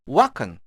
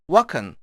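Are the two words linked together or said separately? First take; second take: linked; linked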